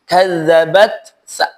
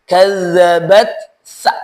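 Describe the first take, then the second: The two takes are said the same way.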